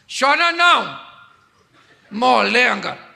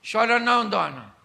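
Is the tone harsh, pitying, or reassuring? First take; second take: harsh; reassuring. First: It is said harshly and mockingly. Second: It is said with confident, reassuring warmth.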